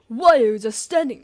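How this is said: It is a put-on voice sounding like Taka.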